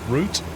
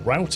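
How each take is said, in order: First: It is said in a British accent. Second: It is said in an American accent.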